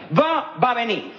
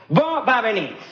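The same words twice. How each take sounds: The two takes are said the same way.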